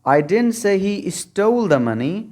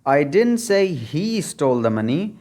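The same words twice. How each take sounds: First: The stress falls on the word stole. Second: The stress falls on the word he. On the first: He took the money but did not steal it. "अगर stall को आप stressed बना देंगे" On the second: Someone else stole the money. "अगर आप ही पर stress डालेंगे"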